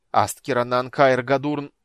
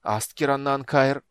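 First: Loud slow chanted spell; spell incantation. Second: Loud slow faltering incantation; spell restarted. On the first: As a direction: intone the spell forcefully. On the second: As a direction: start the spell again. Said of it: "запнулась и начала заново". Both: A narrator's reading.

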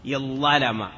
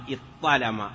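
First: اضطلم as iẓẓalama, one long ẓ; merged into double ẓ. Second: اضطلم as iṭṭalama, one long ṭ; merged into double ṭ. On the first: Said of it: "طاء قلبت ضاء ثم أدغمت". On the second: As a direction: hold a doubled emphatic ṭ in اضطلم. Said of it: "بعد قلب ضاء طاء". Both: Shown as a demonstration.

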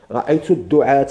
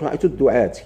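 First: "الدعاة" ending in a clear -ta; accusative ending -a. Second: "الدعاة" ending in -ti; quick counterexample, "الدعاة" closed on -ti; wrong -i ending. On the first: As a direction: say "الدعاة" as ad-du'aata. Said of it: "ما تقولش رأيت الدعاة". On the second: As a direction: say "الدعاة" as ad-du'aati. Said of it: "ما تقولش". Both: Shown as a demonstration.

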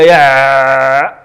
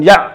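First: يع with the ayn held far too long; overstretched ayn. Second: يع chopped right at the ayn; ayn cut short. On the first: Teacher showing what cannot be said, ayn overstretched in يع. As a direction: drone on the ع in يع as a wrong example. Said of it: "ما يمكنش تقولها". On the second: Teacher showing the opposite mistake, ayn cut off in يع. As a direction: stop abruptly on the ع in يع. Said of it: "وما يمكنش". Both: Shown as a demonstration.

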